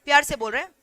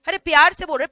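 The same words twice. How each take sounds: First: Said in the usual way. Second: Louder, pressing on प्यार; louder insistence. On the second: Shown as a demonstration. Teacher insisting to class, louder.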